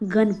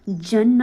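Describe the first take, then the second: First: The word begins with a hard g sound. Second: The word begins with a j sound. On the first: The speaker calls it right. "गन पढ़ते हैं" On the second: The speaker calls it wrong. "इसको जन न पढ़ के"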